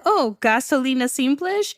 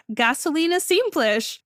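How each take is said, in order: First: "gasolina simples" rising at the end; questioning echo. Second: "gasolina simples" stated, falling at the end; falling statement. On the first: Clerk checking the order, "gasolina simples" with questioning rise. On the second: Driver ordering fuel, "gasolina simples" as falling statement. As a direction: give "gasolina simples" as an answer, tune dropping. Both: Retold or imitated.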